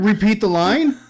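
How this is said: It is said with a questioning rise at the end.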